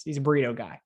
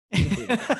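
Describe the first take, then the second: First: Said in the usual way. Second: A light, higher mock Dan voice saying "He's a burrito guy."; imitating Dan. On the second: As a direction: echo Dan's catchphrase a bit higher, half-joking. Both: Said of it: "As Dan has said many times".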